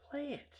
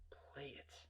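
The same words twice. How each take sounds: First: High, strained little order; insistent high squeak; high-pitched demand. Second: Very soft, menacing whisper; barely voiced threat; whispered demand. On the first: Retold or imitated. Demand grows more intense. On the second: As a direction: whisper the order.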